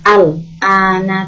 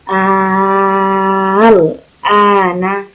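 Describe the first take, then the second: First: The vowel after al is short. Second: The vowel after al is held long. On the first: The speaker calls it wrong. "bukan al ana" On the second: The speaker calls it right. "alifnya ketemu lamnya itu panjang"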